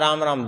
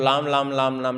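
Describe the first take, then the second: First: The word begins with an R sound. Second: The word begins with an L sound. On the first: This is the intended pronunciation. "उच्चारण वो करना चाहता है राम राम" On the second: The speaker has lost his teeth. "दांत टूट गए हैं तो लाम लाम लाम लाम निकल रहा है"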